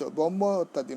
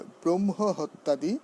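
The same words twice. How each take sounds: First: ব্রহ্ম said "bommo", no r or h; wrong pronunciation. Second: ব্রহ্ম as "brom-ho", r and h sounded; correct pronunciation. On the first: Teacher showing the misquoted verse, careless "bommo". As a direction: reduce ব্রহ্ম to a plain "bommo". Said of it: "নয়". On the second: Teacher modelling the verse word, careful "brom-ho". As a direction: give ব্রহ্ম its r and its h. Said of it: "তারপরে কি ব্রহ্ম হবে". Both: Shown as a demonstration.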